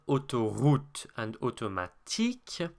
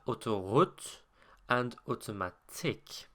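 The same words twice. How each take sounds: First: The vowels are tight and tense. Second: The vowels are looser and lax. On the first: This is the standard French pronunciation. "rather than" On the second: This is the Quebecois pronunciation. "lazier than that"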